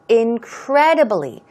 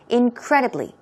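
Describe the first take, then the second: First: The word is said slowly and fully. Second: The word is said fast and reduced.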